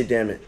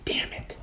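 First: Said in the usual way. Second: Whispered imitation of a muffled curse; imitated muted curse. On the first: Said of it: "it's okay to say". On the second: Wife cursing in the back, imitated whisper. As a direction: mouth it softly, as if from the back. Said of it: "My wife is saying".

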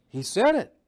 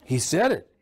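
First: "He said it." higher and punched on "said"; emphatic repeat. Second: Said in the usual way. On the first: Shown as a demonstration. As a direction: hammer it home the second time, higher and with a rising "said". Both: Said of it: "Jesus even said the hell word".

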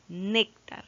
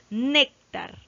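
First: Said in the usual way. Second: "Néctar" with NÉC punched loud, then falling; emphatic teacher's "NÉÉC-tar"; stress on NÉC. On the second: Shown as a demonstration. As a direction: lean hard on the first syllable of "Néctar". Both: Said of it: "está fácil de detectar la clase de acento".

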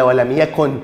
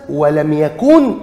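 First: يكن with a quick short u before the final n; short vowel in يكن. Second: يكن said slowly with a long oo, as "yakoon"; long vowel in يكن. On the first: Teacher gives the correct jussive form, short u in يكن. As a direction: keep the u in يكن short, as "yakun". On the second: Teacher offers the uncontracted form for comparison, long oo in يكن. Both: Shown as a demonstration. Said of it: "ولا".

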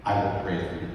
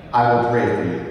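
First: Said in the usual way. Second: "I will pray for you" said louder and firmly, leaning on "I"; emphatic promise. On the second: Real, not acted. Repeated promise, second louder.

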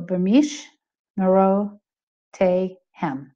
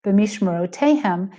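First: B'mishmerotehem broken slowly into separate syllables. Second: B'mishmerotehem said smoothly at normal pace, Israeli style; authentic Israeli accent. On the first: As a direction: stop and say each syllable of B'mishmerotehem as a whole. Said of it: "they're gonna stop and go". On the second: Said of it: "is how a more authentic". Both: Shown as a demonstration.

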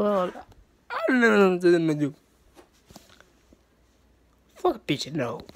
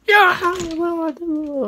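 First: A sulky pretend moan; mock despair. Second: Badly faked wail; mock crying. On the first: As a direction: drag it out, pretending to be hopeless. Repeat, sinking into mock despair. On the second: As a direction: pretend to cry it out, half-joking. Mock crying after laughter.

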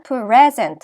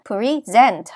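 First: PREsent, first syllable stressed as a noun. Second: PreSENT, second syllable stressed as a verb. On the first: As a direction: hit PRE in "present", keep -sent light. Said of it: "앞에 강세가 와요". ("present"의 앞 음절 pre에 강세) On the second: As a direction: keep pre- light, hit SENT in "present". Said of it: "뒤에 강세가 와요". ("present"의 뒤 음절 sent에 강세) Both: Shown as a demonstration.

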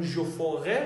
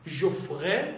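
First: "je ferai" with "ferai" in two syllables, fe-rai; full pronunciation. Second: "Je ferai" with "ferai" as one syllable, frai; contracted pronunciation. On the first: Teacher gives the equivalent form, "ferai" fully voiced as fe-rai. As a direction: sound the middle vowel of "ferai", ending on a rise. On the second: Teacher breaks down the example, "ferai" run together as frai. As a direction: drop the middle vowel of "ferai". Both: Shown as a demonstration.

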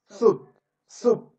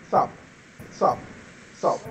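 First: "Soup" with a long oo vowel; soup pronunciation. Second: "Soap" with an o vowel; soap pronunciation. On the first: Teacher shows a student how soup differs from soap, clear oo in "Soup". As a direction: say "Soup" with oo, set apart from soap. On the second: Teacher shows a student how soap differs from soup, clear o in "Soap". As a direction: say "Soap" with o, set apart from soup. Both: Shown as a demonstration. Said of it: "La pronunciación es diferente".

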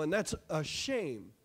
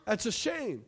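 First: Slow, soft, sorrowful drop; hushed and slow, shaking the head; quiet lament. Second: Said in the usual way. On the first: Real, not acted. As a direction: let it sink in sadly. Lamenting the country changing.

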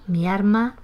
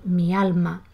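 First: "mi arma" for mi alma, R replacing the L. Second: Said in the usual way. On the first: Shown as a demonstration. Teacher quoting typical Andalusian expression, "mi arma" with R for L. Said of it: "La expresión típica". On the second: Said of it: "en lugar de mi alma".

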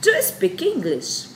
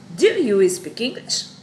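First: Bright, high classroom model question; high teaching demo. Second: Said in the usual way. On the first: Shown as a demonstration. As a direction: Do you speak English pitched much higher and slow. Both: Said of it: "aí ela vai perguntar".

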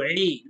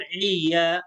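First: عي as one held 'ee', nothing after it; long pure vowel. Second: عيا with an extra 'ya' after the 'ee'; two-syllable عيا, tacked-on 'a'; wrong added syllable. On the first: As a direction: hold عي without adding a syllable. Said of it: "إذن نقول عي". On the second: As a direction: demonstrate the mistake عيا, ending in 'ya'. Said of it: "لا نقول عيا". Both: Shown as a demonstration.

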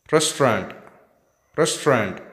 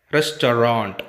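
First: "Restaurant" as "res-trant"; two-syllable RESTAURANT. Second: "Restaurant" as "res-to-rant"; three-syllable RESTAURANT. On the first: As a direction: drop the middle vowel of "Restaurant". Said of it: "We can pronounce it with two syllables". ("Restaurant" squeezed into two syllables) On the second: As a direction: sound the middle vowel of "Restaurant". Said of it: "ta will act". ("Restaurant" with a full middle syllable) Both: Shown as a demonstration.

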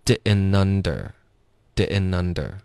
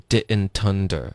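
First: "didn't under" slowly as di'n-nunder; t dropped. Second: "didn't under" run together as di'n-tunder; linked with t. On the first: Teacher showing American reduction, "didn't under" without t. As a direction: link "didn't under" with n replacing t. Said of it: "这个特的音也会省略". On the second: Teacher showing the linking, "didn't under" with t sounded. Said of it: "要连到under". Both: Shown as a demonstration.

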